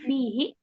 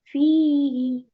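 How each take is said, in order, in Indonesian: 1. Ada hamzah tambahan di kata ini. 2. Tidak ada hamzah tambahan di kata ini. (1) "Kalau kayak ada tambahan hamzah. ... Jangan fihi" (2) "tapi fihi"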